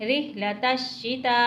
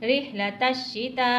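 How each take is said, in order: Both takes have the same delivery.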